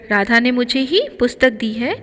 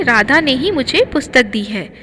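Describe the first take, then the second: First: मुझे ही lifted with a rise on ही; stress on मुझे ही. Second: ही leans on Radha ने, as in 'Radha herself'; stress on Radha ने ही. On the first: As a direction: put the weight on मुझे ही, as in 'me and no one else'. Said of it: "मुझे के साथ में ही का प्रयोग है". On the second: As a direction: hit Radha ने ही as one stressed unit. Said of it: "ही से राधा पर जोर डाला गया". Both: Shown as a demonstration.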